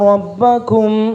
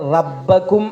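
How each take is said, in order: First: The r is heavy, with a rounded o-like vowel. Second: The r is light, with a plain a vowel. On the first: The speaker calls it right. "റോ ആണ്" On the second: The speaker calls it wrong. "പലരും ഓതുമ്പോൾ റബ്ബക്കും എന്നാണ് കേൾക്കുന്നത്. റ അല്ല"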